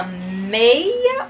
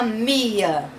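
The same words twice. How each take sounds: First: "meia" with an e-i glide in the first syllable; correct word meia. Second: "mia" with a pure i, no e; wrong option mia. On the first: Teacher offers children the right option, "meia" as MEI-a. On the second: Teacher offers children the wrong option, "mia" as MI-a. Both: Shown as a demonstration. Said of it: "Isso é uma meia ou uma mia?".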